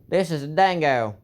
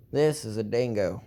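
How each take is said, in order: First: "This is a dingo" called out higher and louder, like a pitchman; showman announcer voice. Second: Said in the usual way. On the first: Shown as a demonstration. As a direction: sell the dingo loud and high like a TV pitch. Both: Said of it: "I like playing around with my voice".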